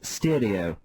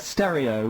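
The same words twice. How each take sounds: First: The word is said the old-fashioned dad way. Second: The word is said the usual way. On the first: "which dads often pronounce stereo" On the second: "how about the word uh, stereo"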